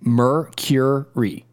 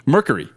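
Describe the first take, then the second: First: Mercury very slowly, "mer, kyur, ree"; correct pronunciation. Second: Mercury clipped to "MER-kuh-ree"; mispronounced. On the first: Shown as a demonstration. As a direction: break Mercury into three slow syllables for a learner. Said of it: "You're just going Mercury". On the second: Real, not acted. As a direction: say Mercury without the y-glide, "merk-uh-ree". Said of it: "I concede".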